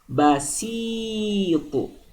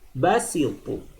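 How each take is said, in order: First: The middle vowel is held long. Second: The middle vowel is cut short. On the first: "Sini panjang" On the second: "Bedakan dengan basitu"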